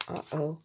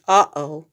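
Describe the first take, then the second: First: A soft, much quieter Uh-oh; quiet aside. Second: Uh-oh, louder and dropping low; a startled Uh-oh; dismayed. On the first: A narrator's reading. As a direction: murmur Uh-oh to yourself. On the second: Acted. Character's dismayed reaction.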